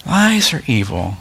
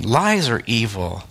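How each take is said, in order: First: Firm restated Lies are evil; emphatic repeat. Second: Said in the usual way. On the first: Shown as a demonstration. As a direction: drive it home the second time.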